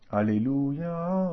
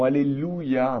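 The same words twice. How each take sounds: First: Alléluia sung out slowly, weight landing on the last syllable ya; accent on the final ya. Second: Said in the usual way. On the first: Shown as a demonstration. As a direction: stretch Alléluia and lean on the ya. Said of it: "on va toujours accentuer cette dernière syllabe, le ya". (Alléluia lent, accent appuyé sur le ya final) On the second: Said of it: "on va toujours accentuer cette dernière syllabe".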